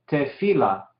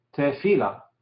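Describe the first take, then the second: No difference in how they are said.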